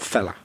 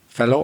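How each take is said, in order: First: The word ends with an 'uh' sound. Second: The word ends with an 'oh' sound. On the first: It is the informal form. "a lot of people would pronounce it fella" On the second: It is the formal form. "He said it the formal way"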